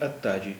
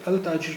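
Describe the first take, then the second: First: The l disappears and the t is doubled. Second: The l sound is pronounced before the t. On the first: The speaker calls it right. "लाम की आवाज़ गायब हो गई, ता की आवाज़ डबल हो गई" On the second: The speaker calls it wrong. "हम इसे अल ताजिर नहीं बोलेंगे"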